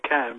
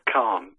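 First: It is said the English way, like 'can'. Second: It is said with a French accent, like 'khan'. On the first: The speaker calls it wrong. "I probably pronounce it wrong. I say Can" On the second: The speaker calls it right. "technically it's Khan with a slight French accent"

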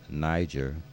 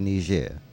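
First: The name is said the English way. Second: The name is said the French way. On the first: The speaker calls it wrong. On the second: The speaker calls it right.

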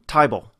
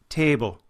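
First: It is said in an Australian accent. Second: It is said in an Irish accent. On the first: "The same kind of thing happens in an Australian dialect" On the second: "as in Irish, where table becomes a table"

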